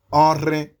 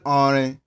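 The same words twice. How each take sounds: First: Orin with the rh digraph sounded; orin, its r strongly breathed, louder; correct pronunciation. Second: Orin with a simple r; mispronunciation. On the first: Teacher modelling a word for learners, correct pronunciation. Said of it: "So if you wanted to say". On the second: Teacher showing learners the slip, mispronunciation. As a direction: orin said without the rh digraph sound. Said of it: "then you said orin". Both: Shown as a demonstration.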